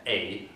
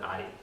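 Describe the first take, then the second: First: The vowel sounds like 'ay'. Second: The vowel sounds like 'eye'. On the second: "The Hungarians, which is my heritage, would pronounce it"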